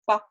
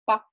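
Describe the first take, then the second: Both takes have the same delivery.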